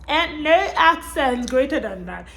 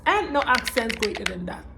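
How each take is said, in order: First: NO ACCENT punched higher and louder; emphatic repeat. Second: Said in the usual way. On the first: Real, not acted. Vlogger insisting on her love of the British accent, emphatic. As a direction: hit "no accent" harder, pitched up.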